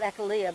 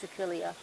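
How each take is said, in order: First: The word does not begin like Achilles. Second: The word begins like the name Achilles. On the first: The speaker calls it wrong. "I used to call it Achillea, but I think that's mispronounced" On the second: The speaker calls it right. "like Achilles"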